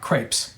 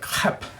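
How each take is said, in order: First: It is said with a plain English pronunciation. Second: It is said with a throaty French pronunciation. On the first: The speaker calls it wrong. "not crepes" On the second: The speaker calls it right. "That's the way the French pronounce it"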